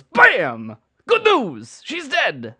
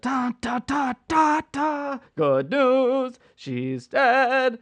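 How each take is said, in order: First: Loud, high celebrity chef catchphrase shout; Emeril impression. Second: Sung opening. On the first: Recasting Wicked with Food Network stars, Emeril as Glinda, loud high chef shout. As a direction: belt it out like a TV chef on stage. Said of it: "It's my Emeril impression". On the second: Pretend. Sings the opening of Wicked.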